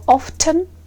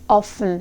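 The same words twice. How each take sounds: First: The T sound is pronounced. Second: The T sound is silent. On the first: "with the sound T" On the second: "without T"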